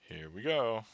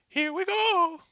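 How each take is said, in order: First: It is said in his normal voice. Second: It is said in a high-pitched Mario voice.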